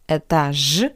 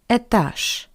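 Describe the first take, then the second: First: The final consonant is a voiced zh. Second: The final consonant is a voiceless sh. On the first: The speaker calls it wrong. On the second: The speaker calls it right.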